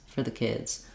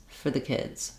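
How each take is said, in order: The two takes are said the same way.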